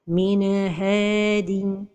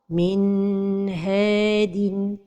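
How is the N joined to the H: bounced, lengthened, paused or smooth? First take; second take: bounced; lengthened. First: The N is released with a small bounce. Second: The N is held too long before H. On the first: "La première erreur, c'est al-qalqalah de an-noun as-sakina" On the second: "c'est de prolonger sans temps"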